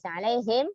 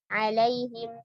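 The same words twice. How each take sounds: First: The final 'him' is exaggerated. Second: The final 'him' is said plainly. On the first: The speaker calls it wrong. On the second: The speaker calls it right.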